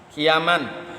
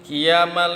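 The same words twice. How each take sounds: First: The second vowel is kept short. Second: The second vowel is drawn out long.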